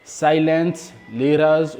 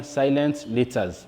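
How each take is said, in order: First: "letters" with a tapped, r-like T; regional pronunciation. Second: "letters" with a clear T; regional pronunciation. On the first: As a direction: say "letters" as "leraz". (« letters » avec le t prononcé comme un r) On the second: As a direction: say "letters" as "letaz", T fully sounded. (« letters » avec un t bien net) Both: Shown as a demonstration. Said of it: "ça dépend de la prononciation de chaque région".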